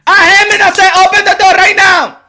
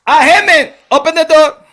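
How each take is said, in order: First: Put-on high, loud accented shout; Manny Pacquiao shouting. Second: Raised-voice demand at a door; Manny Pacquiao calling. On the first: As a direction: escalate to an impatient yell at the door. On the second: Acted. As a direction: call out firmly in an imitated accent. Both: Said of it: "Manny Pacquiao was, went to the office".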